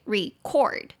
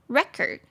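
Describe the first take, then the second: First: The stress is on the second syllable. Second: The stress is on the first syllable. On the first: It is a verb meaning to record. "重音节第二音节，这个是动词记录" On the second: It is a noun meaning a record. "重音节变到第一"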